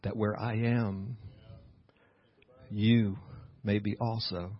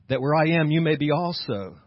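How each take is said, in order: First: The phrase is said at a slower pace. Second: The phrase is said at a quicker pace.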